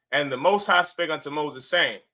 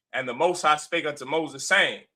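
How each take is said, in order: No difference in how they are said.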